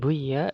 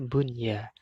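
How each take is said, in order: First: The n sound is dropped before the y. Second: The n sound is pronounced clearly before the y. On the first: The speaker calls it wrong. "bukan buya" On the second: The speaker calls it right. "tapi dibaca bun ya, dibaca jelas"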